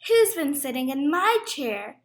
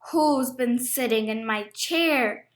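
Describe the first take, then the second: First: The voice is at a medium, moderate pitch. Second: The voice is deep, gruff and growling. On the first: "in her middle-sized voice" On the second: "He growled in his great gruff voice"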